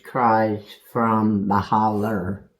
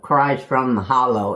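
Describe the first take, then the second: First: The last word ends with an 'er' sound. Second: The last word ends with an 'oh' sound. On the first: This is how local people say the word. The speaker calls it right. "because that's the way they say it, is holler" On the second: This follows the written spelling of the title. The speaker calls it wrong. "is what the, the title says, really, but it's, it's not the way you say it"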